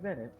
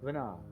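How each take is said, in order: First: The name ends with a t sound. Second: The name ends on a vowel sound. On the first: The speaker calls it wrong. "Not pronounced like Venet" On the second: The speaker calls it right.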